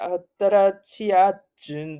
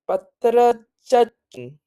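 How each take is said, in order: First: The syllables chi and a are kept separate. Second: The syllables chi and a merge into cha. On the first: The speaker calls it wrong. "don't say atarachiachun" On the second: The speaker calls it right. "you just say patarachachun"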